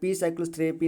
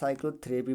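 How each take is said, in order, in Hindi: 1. 's' से पहले 'p' का उच्चारण किया जाता है। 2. 's' से पहले 'p' मौन रहता है। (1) "पी साइक्लोथेरेपी नहीं पढ़ा जाएगा" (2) "साइक्लोथेरेपी पढ़ा जाएगा"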